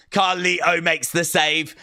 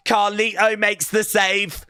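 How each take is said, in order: First: Said in the usual way. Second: Sung. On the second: Shown as a demonstration. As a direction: sing the line playfully. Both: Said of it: "sung repeat".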